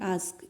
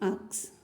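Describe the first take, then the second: First: The s sound comes before the k. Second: The k sound comes before the s. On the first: The speaker calls it right. "ये होता है आस्क, ये है correct" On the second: The speaker calls it wrong. "वो आस्क की जगह क्या बोलती है"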